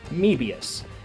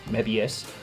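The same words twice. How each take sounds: First: The first E is said as a hard E. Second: The first E is said soft, not hard. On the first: "you can say it with a hard E" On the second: "they drop the O, in which case it would be M E B I U S"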